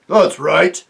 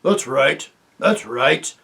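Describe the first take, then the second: First: Loud gruff agreement; chorus of dwarfs; dwarfs agreeing. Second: A loud growl from the dwarfs; growled agreement. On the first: The other dwarfs back Griffle, loud and gruff. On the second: The other dwarves back Griffle with a growl. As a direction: grumble it as a pack of dwarfs. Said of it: "growled the other dwarves". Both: Acted.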